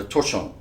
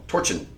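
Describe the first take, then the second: First: Torchon said as tor-SHOWN; alternate pronunciation. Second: Torchon said as TOR-chun; alternate pronunciation. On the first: Host unsure of the Italian chain's name, torchon as tor-SHOWN. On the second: Host trying another Italian pronunciation, torchon as TOR-chun. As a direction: say torchon with a hard CH and short, weak ending. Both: Shown as a demonstration. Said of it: "could probably correct me here".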